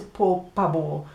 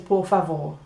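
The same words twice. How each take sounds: First: The v in favor sounds like a hard b. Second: The v in favor sounds like a soft v. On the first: The speaker calls it wrong. "Nobody says por favor" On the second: The speaker calls it right. "when it's between two vowels... then it makes a V sound"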